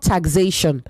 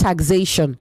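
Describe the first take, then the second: First: The middle consonant is a 'z' sound. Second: The same.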